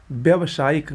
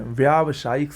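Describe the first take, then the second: First: व्यावसायिक opening on short "vya"; wrong pronunciation. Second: व्यावसायिक opening on long "vyaa"; correct pronunciation. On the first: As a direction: shorten the first aa of व्यावसायिक to a schwa. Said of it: "गलत है". (व्यावसायिक को "व्यवसायिक" बोलें) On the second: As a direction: hold a full first aa in व्यावसायिक. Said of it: "सही होता है". (व्यावसायिक में लंबा "व्या") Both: Shown as a demonstration.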